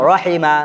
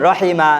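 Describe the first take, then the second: No difference in how they are said.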